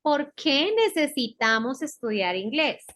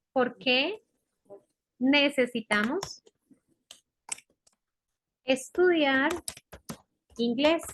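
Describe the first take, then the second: First: Said in the usual way. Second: Word-by-word dictation. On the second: Shown as a demonstration. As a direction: dictate in small pieces, long pauses between them. Teacher dictates it piece by piece. (dictado pausado, palabra por palabra)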